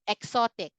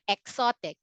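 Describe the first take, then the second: First: It has a Philippine English pronunciation. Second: The same.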